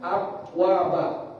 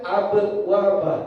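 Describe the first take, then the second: First: The b sound has no echoing bounce. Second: The b sound has an echoing bounce.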